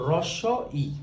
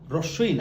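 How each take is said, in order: First: The two parts are kept apart, with a clear vowel. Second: The two parts are run together into one word. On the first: The speaker calls it right. "এটার নাম হলো রস্য ই" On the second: The speaker calls it wrong. "রস্যই না"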